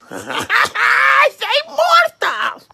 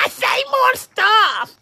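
First: Slow, laughing through the words; taunting through a laugh. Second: Said in the usual way. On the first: Acted. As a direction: chuckle it out slowly.

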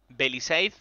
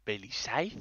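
First: Staff calling the name. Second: Quiet baffled repeat of "Belisaiz" as a question; puzzled echo. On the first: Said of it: "Y dicen". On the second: She hears her misspelled name called and echoes it, baffled and quiet. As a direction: softly repeat "¿Belisaiz?" rising, in disbelief. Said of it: "Y yo". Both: Retold or imitated.

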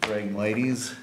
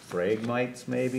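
First: "Phragmites" as frag-MY-teez, three syllables; corrected pronunciation. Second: "phragmites" tried as FRAG-mites, two syllables; a questioning guess at "phragmites", rhyming the end with "nights"; unsure pronunciation. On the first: Manager repeating a colleague's version of the plant name, corrected pronunciation. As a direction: echo the correction, "Phragmites" ending in a long "teez". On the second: Manager guessing at an unfamiliar plant name, unsure pronunciation. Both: Real, not acted. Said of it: "I don't know how it's pronounced".

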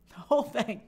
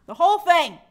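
First: Said in the usual way. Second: Whole punched loud; stress on whole. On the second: Shown as a demonstration. Host repeating for emphasis, whole punched loud. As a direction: hit the word whole hard.

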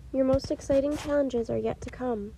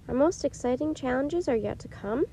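First: Said in the usual way. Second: "Our most exciting challenges are yet to come?" rising to a question at the end; questioning echo. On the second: A narrator's reading. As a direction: echo it as a puzzled question, lifting the pitch on "come". Jack repeats Morgan's words, questioning.

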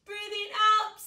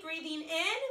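First: Loud hissing breath out; snake hiss. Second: Breathing in cue. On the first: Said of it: "make a hissing sound like a snake". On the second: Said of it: "take a big breath in". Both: Shown as a demonstration.

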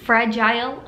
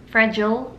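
First: "Fragile" with a long "eye" in the last syllable; odd pronunciation. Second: Said in the usual way. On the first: Shown as a demonstration. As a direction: say "Fragile" as FRA-jile, rhyming with mile. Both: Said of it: "Can't speak".

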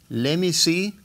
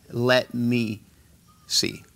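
First: "Let me" como "lemi", más agudo; T perdida. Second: "Let me" con la T clara y pausado; T pronunciada. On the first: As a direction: omite la T de "Let me see". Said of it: "Esa T se pierde". ("Let me see" dicho sin T) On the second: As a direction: marca la T de "Let" y separa "see". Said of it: "Asegúrate que pronuncias esa T". ("Let me see" cuidado, con T) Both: Shown as a demonstration.

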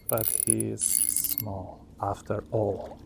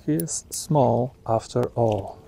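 First: Low, slow, quiet fisherman drawl; slow it right down, low and soft; Catfish Dave voice. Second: Said in the usual way. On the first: Retold or imitated. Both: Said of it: "Talking like Catfish Dave now".

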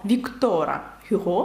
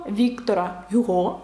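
First: "Віктора Гюго" with stress moved to -то- and -го; final-syllable stress. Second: Said in the usual way. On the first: Shown as a demonstration. Teacher correcting the writer's name, stress moved toward the end. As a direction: shift the weight late in "Віктора Гюго". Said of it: "наголос на останній склад". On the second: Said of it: "правильніше так".

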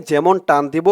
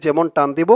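Both takes have the same delivery.

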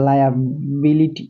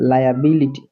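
First: liability drawn out very slowly, each syllable clear; slow demo. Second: Said in the usual way. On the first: Shown as a demonstration. Teacher showing students the word, very slowly. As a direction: stretch liability slowly for learners. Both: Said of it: "দেখছো?".

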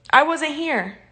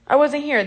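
First: The word "I" pushed forward, falling at the end; stress on I. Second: Weight moves onto "wasn't", falling finish; stress on wasn't. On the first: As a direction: lean on "I" in "I wasn't here". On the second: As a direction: hit "wasn't" in "I wasn't here". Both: Real, not acted.

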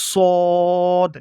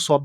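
First: সদ louder, heavy s and long held o; correct সদ. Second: Said in the usual way. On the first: Shown as a demonstration. Teacher corrects the short reading, loud sustained heavy সদ. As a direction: stretch the round vowel of সদ on one note. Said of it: "এইভাবে উচ্চারণ করতে হবে". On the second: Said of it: "শুধু সদ বললে হবে না".

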